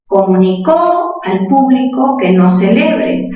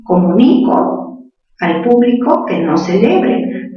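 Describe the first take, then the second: First: Comunicó with the last syllable "có" hit hard, ko-mu-ni-KÓ; stress on final ó of comunicó. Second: Comunico with the weight on "ni", ko-mu-NI-ko, the final o unstressed; stress on ni of comunico. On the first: Teacher reading the sentence aloud to her class, stress on the last syllable of comunicó. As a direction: land the weight on the end of comunicó, as in he announced it. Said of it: "Si digo comunicó, sería él".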